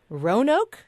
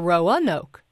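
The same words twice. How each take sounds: First: The name is said with two syllables. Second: The name is said with three syllables. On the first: "two syllables" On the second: "three syllables"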